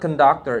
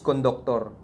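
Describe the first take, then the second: First: The word is said in standard English style. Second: The word is said in local dialect style. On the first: The speaker calls it wrong. "It's not" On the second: The speaker calls it right. "we call it in our local dialect"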